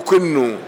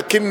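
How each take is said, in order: First: The first vowel is u, the second i. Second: The first vowel is a, the second i. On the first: "بضم الهمزة وكسر الكاف" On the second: "بفتح الهمزة"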